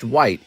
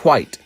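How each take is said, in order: First: The word starts with a plain w sound. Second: The word starts with a breathy wh sound. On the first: The speaker calls it wrong. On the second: The speaker calls it right. "like Cool Whip"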